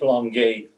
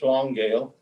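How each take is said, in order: First: The name is said with a French pronunciation. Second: The name is said with an English pronunciation. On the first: "Franco pronunciation" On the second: "that's the Anglo pronunciation"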